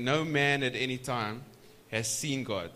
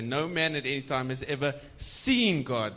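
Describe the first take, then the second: First: Said in the usual way. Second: Seen pressed a little harder, the line read plainly; stress on seen. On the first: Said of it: "So if you emphasize". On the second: Shown as a demonstration. Preacher to congregation, showing where the stress falls: seen stressed. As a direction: lean on the word "seen" to get revelation from seeing. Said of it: "So if you emphasize, say".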